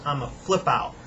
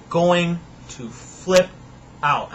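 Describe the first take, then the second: First: Said in the usual way. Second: Very slow, deliberate "Going to flip out"; drawn-out emphasis. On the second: Acted. Warning the neighbors' kids, slow and deliberate. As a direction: stretch out "flip" then land "out". Slowed restatement.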